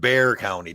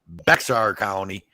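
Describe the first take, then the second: First: The name is said like the word 'bear'. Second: The name is said with a 'ks' sound, 'Bex-ar'. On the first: This is how local people say it. "they call it Bear County down here" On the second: This is the official, written name. "it's called Bexar County"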